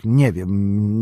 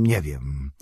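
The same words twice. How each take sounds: First: Said in the usual way. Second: Crushed repeat. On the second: A narrator's reading. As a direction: lower and softer, sinking into despair. (ciche, niższe, zrezygnowane powtórzenie) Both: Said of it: "jakby przytłoczony zgryzotą".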